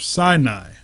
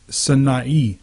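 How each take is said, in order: First: Sinai is pronounced the usual English way. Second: Sinai is pronounced the Hebrew way.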